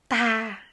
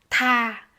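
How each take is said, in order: Both takes have the same delivery.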